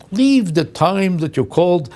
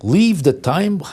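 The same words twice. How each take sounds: First: Slow, higher, spelled out; patronizing machine instruction. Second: Incredulous echo. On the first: Retold or imitated. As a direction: instruct like to an idiot. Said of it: "Then you say". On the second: Real, not acted. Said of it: "That's the most offensive thing".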